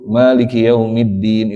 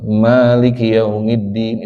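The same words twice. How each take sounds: First: The first vowel of Maliki is kept short. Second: The first vowel of Maliki is drawn out long. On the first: This is the reading used in Morocco. "pendek saja" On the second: This is the common reading in Indonesia.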